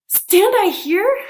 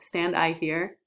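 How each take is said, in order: First: It is said with lively, varied expression. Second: It is said in a flat monotone. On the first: The line carries the character's shock. The speaker calls it right. "This is supposed to be like" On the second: The line has no meaning. The speaker calls it wrong. "What if I read in monotone?"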